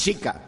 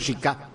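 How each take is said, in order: First: The stress is on the first syllable. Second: The stress is on the last syllable. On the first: The speaker calls it right. "El apócope de Francisca es justamente es Chica" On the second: The speaker calls it wrong. "no Chica"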